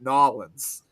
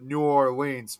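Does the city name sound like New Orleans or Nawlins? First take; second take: Nawlins; New Orleans. First: The name sounds like "Nawlins." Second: The name sounds like "New Orleans." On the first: The speaker calls it right. "now I'm trying to get used to calling it Nolans" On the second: The speaker calls it wrong. "we always called it New Orleans"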